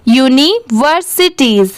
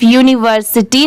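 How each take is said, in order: First: यूनिवर्सिटीज spoken deliberately with a final "teez"; full plural reading. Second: यूनिवर्सिटी ending on an open "tee", no final z; incomplete reading. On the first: Teacher correcting a short reading, full यूनिवर्सिटीज with clear final z. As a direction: sound out यूनिवर्सिटीज through to the z. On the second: Teacher showing learners what not to read, incomplete यूनिवर्सिटी ending in "tee". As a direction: say यूनिवर्सिटी without the plural sound. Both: Shown as a demonstration. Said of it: "इसे सिर्फ यूनिवर्सिटी नहीं पढ़ेंगे".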